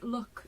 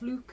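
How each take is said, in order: First: It is said with a posh vowel. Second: It is said with a northern Geordie vowel.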